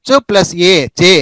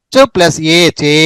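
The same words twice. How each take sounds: First: చే with a short e; short vowel. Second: చే with a drawn-out e; long vowel. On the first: Teacher combining చ with each vowel, short vowel. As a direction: keep ఏ brief in చే. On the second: Teacher combining చ with each vowel, long vowel. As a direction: stretch the vowel of చే. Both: Shown as a demonstration. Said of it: "చ అనే దానికి ఆ కలిపితే చ".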